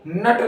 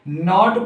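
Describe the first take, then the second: First: The vowel sounds like 'uh'. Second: The vowel sounds like 'o'. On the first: The speaker calls it wrong. "नट नहीं पढ़ते हैं" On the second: The speaker calls it right. "बल्कि नॉट पढ़ते हैं"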